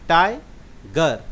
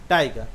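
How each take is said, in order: First: "टाइगर" very slowly, broken in two after टाइ; split into syllables. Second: Said in the usual way. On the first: Shown as a demonstration. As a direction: say "टाइगर" as two separate beats, टाइ, pause, गर. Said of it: "टाइगर को हम लोग कैसे उच्चारण करें?". ("टाइगर" को दो हिस्सों में तोड़कर, बहुत धीरे: टाइ, गर) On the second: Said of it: "दो बार में उच्चारण करते हैं".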